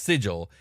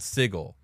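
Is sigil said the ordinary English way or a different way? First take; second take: ordinary English; different. First: It is said like the ordinary English word. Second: It is said differently from the ordinary word. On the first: This is how the real English word sounds. The speaker calls it right. "a word in English, pronounced sigil" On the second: This is how the fantasy city's name is meant to sound. The speaker calls it wrong. "and just say no, but it's called sigil"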